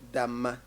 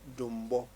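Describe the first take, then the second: First: The middle has a long m with no b. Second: The first vowel is u and the last vowel is o. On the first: This is the Mampuli form of the name. "if it is Mampuli we say Damma" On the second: This is the Wala form of the name. "the Wala people will say Dumbo Festival"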